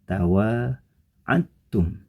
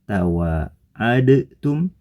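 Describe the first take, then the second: First: The d merges into a doubled t sound. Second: A separate d sound comes before the t. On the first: This is how the word is actually read. "dibaca menjadi" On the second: This is how the word is written.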